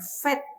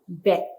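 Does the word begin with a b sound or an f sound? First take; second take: f sound; b sound. First: The word begins with an f sound. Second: The word begins with a b sound. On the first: The letter is written without a dot in the middle. "apabila tidak ada titik di tengah, ya, kita mengucapkannya dengan fet" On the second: The letter is written with a dot in the middle. "yang dengan titik dagesh di tengah itu kita membacanya dengan b"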